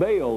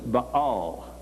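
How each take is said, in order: First: The name is said the usual English way. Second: The name is said the original Hebrew way. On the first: "is the way we normally pronounce it" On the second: "but to them it was Baal"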